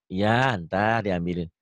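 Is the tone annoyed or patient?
patient. The reply sounds patient and calm.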